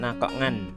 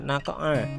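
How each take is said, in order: First: The word ends with an n sound. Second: The word ends on a plain vowel. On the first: The speaker calls it wrong. "jadi bukan naqa'an" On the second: The speaker calls it right. "karena waqaf dibaca naqa'a"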